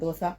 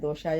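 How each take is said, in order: First: The middle consonant is an 's' sound. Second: The middle consonant is a 'sh' sound. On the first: This is how the speaker's children want it said. "मेरे बच्चे बोलते हैं कि मम्मा डोसा बोलिए" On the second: This is how the speaker habitually says it. "मैं दोशा बोलती हूँ"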